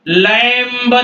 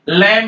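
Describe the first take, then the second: First: The final b sound is pronounced. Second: The final b sound is silent. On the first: The speaker calls it wrong. "लैम्ब नहीं है" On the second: The speaker calls it right. "लैम है ... B silent है आपका"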